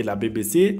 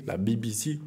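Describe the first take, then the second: First: Said in the usual way. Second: BBC spelled out English-style, "bee bee see"; English accent. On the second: Shown as a demonstration. Showing viewers his English accent on "B B C", English letter names. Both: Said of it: "Vous avez vu un peu mon accent anglais".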